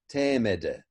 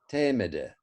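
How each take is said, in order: Both takes have the same delivery.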